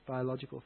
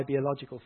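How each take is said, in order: First: "biological" starting like BYE; BYE-ological. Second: "biological" starting like BEE; BEE-ological. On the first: Preacher correcting himself softly, "biological" said as bye-ological. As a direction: say "biological" with a long i in the first syllable, bye-ological. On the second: Preacher naming his own father, "biological" said as bee-ological. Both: Real, not acted. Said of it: "biological father".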